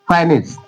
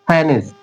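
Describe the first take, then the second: No difference in how they are said.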